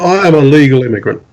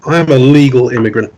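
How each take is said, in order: First: "I" stressed in "I am a legal immigrant". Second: "am" stressed in "I am a legal immigrant". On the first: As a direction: lean on the word "I". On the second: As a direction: lean on the word "am". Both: Shown as a demonstration.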